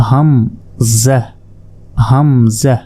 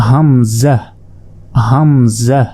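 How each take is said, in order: No difference in how they are said.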